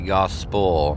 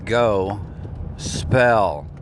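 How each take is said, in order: First: The ending is weak and reduced, like 'spul'. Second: The ending is a full, clear 'spell'. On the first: The speaker calls it wrong. "A lot of people will say gospel. Either way, it's wrong" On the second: The speaker calls it right. "It's go spell"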